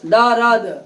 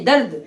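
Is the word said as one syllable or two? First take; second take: two; one. First: An extra vowel splits the word into two syllables. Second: The word is said as one closed syllable. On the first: The speaker calls it wrong. "दौरद नहीं" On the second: The speaker calls it right.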